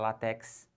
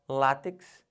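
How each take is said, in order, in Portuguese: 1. A sílaba tônica fica na última. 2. A sílaba tônica fica na primeira. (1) "Ainda não pode falar latex" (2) "O certo é látex"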